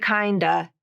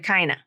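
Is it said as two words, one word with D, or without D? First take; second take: with D; without D. First: It is one reduced word keeping the D. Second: It is one reduced word with the D dropped. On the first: "It's kind of reduced to kinda" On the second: "reduced even more to kinda"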